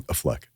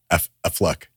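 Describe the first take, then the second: First: "Affleck" run together as uh-FLECK; offhand "Affleck", stress on the end; casual pronunciation. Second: "Affleck" said carefully, first syllable set apart; low, deliberate "F-, Affleck"; proper pronunciation. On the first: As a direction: say "Affleck" low and loose, first syllable reduced. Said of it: "was okay with saying Affleck". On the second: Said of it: "he wanted proper pronunciation". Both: Retold or imitated.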